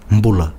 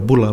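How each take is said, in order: First: The word starts with an m before the b. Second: The word starts with a plain b sound. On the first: The speaker calls it right. "It's an M before the B" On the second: The speaker calls it wrong. "people just say Bula, but it's not that"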